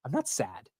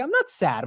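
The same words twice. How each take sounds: First: Subdued denial. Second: Defensive denial. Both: Retold or imitated. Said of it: "I was like".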